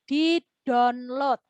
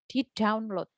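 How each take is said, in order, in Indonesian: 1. Download diucapkan mengikuti ejaannya, gaya Indonesia. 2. Download diucapkan dengan vokal gaya Inggris. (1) "kata download itu enggak ada" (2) "Lah itu baru benar"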